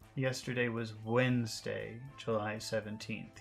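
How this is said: The day name is emphasized and lengthened.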